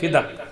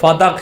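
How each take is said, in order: First: The first syllable has an 'i' vowel. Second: The first syllable has an 'a' vowel. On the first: The speaker calls it wrong. "आमतौर पे बोला जाता है खुतबा फिदक, ये दुरुस्त लफ्ज नहीं है।" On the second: The speaker calls it right. "खुतबा लफ्ज है वो फदक है।"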